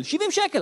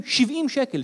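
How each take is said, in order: First: שבעים שקל repeated higher in disbelief; indignant high repeat. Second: Said in the usual way. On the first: Shown as a demonstration. Father complaining about diaper prices, higher indignant repeat.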